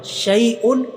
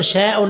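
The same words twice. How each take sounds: First: शैउन said as shai-un, ai then u apart, a bit higher; correct pronunciation. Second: शैउन run together as sheon, no separate ai; wrong pronunciation. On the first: Teacher giving students the right reading, शैउन as shai-un. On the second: Teacher warning students, शैउन said as sheon. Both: Shown as a demonstration. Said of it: "इसको शैउन नहीं पढ़ना".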